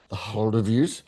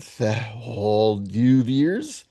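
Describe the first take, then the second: First: Said in the usual way. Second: "The Holdovers" drawn out as "thah hold-YOU-veers", rising; mangled film title. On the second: Shown as a demonstration. Reading out a guess, "The Holdovers" mangled as hold-you-veers.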